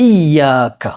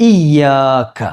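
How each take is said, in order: The two takes are said the same way.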